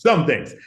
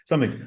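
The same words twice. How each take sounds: First: "Some" gesetzt, etwas lauter; "Some" betont, fallend; stress on some. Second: Said in the usual way. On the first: Shown as a demonstration. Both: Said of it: "To some things".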